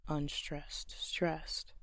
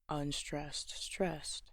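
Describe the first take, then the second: Both takes have the same delivery.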